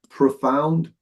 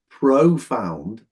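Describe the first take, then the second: First: The first vowel is a reduced vowel. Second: The first vowel is a full vowel. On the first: The speaker calls it right. "I said profound. So you've got this kind of dead vowel sound here" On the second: The speaker calls it wrong. "I didn't say profound"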